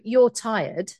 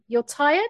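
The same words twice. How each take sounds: First: It is said with a firm statement intonation. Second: It is said with a tentative, offering intonation. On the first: It is a judgment being told to the listener. "you receive that as a judgment because I have told you you're tired" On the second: It is a suggestion for the listener to consider. "the difference between a statement and an offer"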